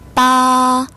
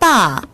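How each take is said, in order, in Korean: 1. 음높이가 높고 평평하게 유지돼요. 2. 음높이가 높은 데서 급하게 떨어져요.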